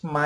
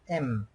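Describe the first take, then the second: First: Ma said as "mah"; Quechua M. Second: M said as "em"; English M. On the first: Teacher showing the Quechua alphabet, ma said as "mah". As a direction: say ma with an open "ah" after the M. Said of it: "You pronounce ma in Quechua". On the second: Teacher contrasting with English, M said as "em". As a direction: say M as the English letter name, "em". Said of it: "English, you pronounce M". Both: Shown as a demonstration.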